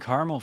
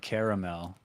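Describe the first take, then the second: First: It is said with two syllables. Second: It is said with three syllables. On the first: "just always been caramel for me" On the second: "like how it's spelled"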